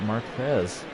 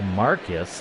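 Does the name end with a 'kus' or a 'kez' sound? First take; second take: kez; kus. First: The name ends with a 'kez' sound. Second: The name ends with a 'kus' sound. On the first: The speaker calls it wrong. "I would have thought Marquez" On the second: The speaker calls it right. "So Marcus"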